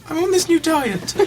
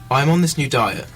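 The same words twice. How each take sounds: First: It is read in a put-on girly voice. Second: It is read in a normal voice.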